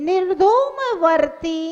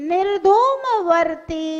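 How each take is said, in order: Both takes have the same delivery.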